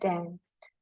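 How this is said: It is said with an American accent. "Kalau bahasa American"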